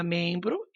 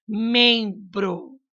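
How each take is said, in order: First: Said in the usual way. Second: "membro" drawn out on the nasal "mem"; slow teacherly "membro", both syllables held; nasal syllable stressed. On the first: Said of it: "você vai pegar membro". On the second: Shown as a demonstration. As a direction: say "membro" slowly, leaning on "mem". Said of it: "esse em é escrito com M".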